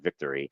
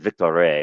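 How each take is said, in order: First: The word is pronounced the English way. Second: The word is pronounced the French way. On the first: The speaker calls it wrong. "It's not victory because it's Montreal and it's French" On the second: The speaker calls it right. "You have to pronounce it Victory"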